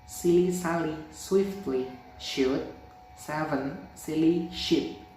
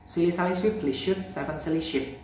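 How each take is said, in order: First: It is spoken at a slow speed. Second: It is spoken at a fast speed. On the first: "Slow mode" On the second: "Fast mode"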